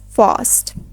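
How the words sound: It is said with a broader British A. "in British English, it is pronounced as"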